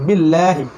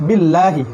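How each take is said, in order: No difference in how they are said.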